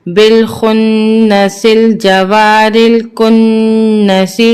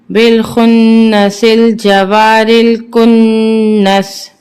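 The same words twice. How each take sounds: First: Slow recitation, الکنس ending in a short "si"; full recitation. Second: Slow recitation, الکنس stopped on bare "s"; waqf pause form. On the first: Teacher reading it whole, الکنس ending in "si". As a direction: join it all, voicing "si" at the end of الکنس. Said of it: "اب اس کو ہم پورا پڑھیں گے". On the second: Teacher showing waqf, الکنس ending in plain "s". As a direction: hold the nn in الکنس, close on "s". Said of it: "وقفاً". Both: Shown as a demonstration.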